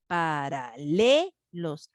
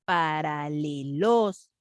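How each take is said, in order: First: Paralelos very slow, LE held long; correct stress on LE. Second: Paralelos very slow, the final LOS pushed; wrong stress on LOS. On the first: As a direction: say it as para-LEEE-los. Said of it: "ese es". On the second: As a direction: test it as parale-LOOOS. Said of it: "¿dónde está la fuerza?". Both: Shown as a demonstration.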